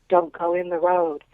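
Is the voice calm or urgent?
urgent. It is said urgently and forcefully.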